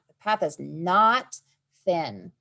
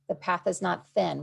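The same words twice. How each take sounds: First: The sentence is read with strong emphasis on its key part. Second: The sentence is read plainly, without special emphasis.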